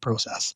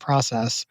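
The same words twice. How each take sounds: First: It is said with a Canadian pronunciation. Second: It is said with an American pronunciation. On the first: The speaker is back home in Canada. "unless I'm in Canada, and then I kick back in and say process" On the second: The speaker has adapted to living elsewhere. "I say process"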